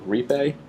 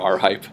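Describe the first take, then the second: First: The name is said without a spoken letter R. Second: The name is said as letter R plus hype. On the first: The speaker calls it right. "I think this is called Repe" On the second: The speaker calls it wrong. "you probably don't want to pronounce it R hype"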